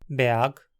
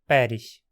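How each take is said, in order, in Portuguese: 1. É dito com pronúncia do alemão padrão. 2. É dito com pronúncia do hunsrik. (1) "depois em alemão padrão moderno" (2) "por fim em Hunsriquiano moderno"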